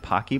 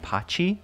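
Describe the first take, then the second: First: The middle consonant is a hard k sound. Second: The middle consonant is a ch sound. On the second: "like a ch, like an Italian pronunciation"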